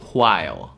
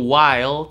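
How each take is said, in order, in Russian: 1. Слово начинается со звука hw с придыханием. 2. Слово начинается с обычного звука w.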